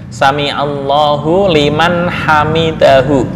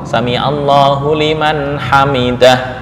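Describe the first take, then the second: First: The phrase ends with a full hu syllable. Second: The phrase ends on a bare h sound. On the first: This is the original full form. "Asalnya hamidahu" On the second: This is the form used when stopping. "Berhubung wakaf"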